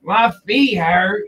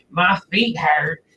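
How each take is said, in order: First: Mock whiny churchgoer. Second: Mock bored churchgoer. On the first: Repeats the mock complaint. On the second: First take of the complaint.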